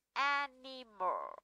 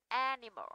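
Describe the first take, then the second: First: "animal" drawn out syllable by syllable, AN-I-MAL; slow syllable demo. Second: Said in the usual way. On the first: Shown as a demonstration. Teacher shows how word is read, slow syllable by syllable. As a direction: say "animal" very slowly, each syllable separate, falling. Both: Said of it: "đọc là animal".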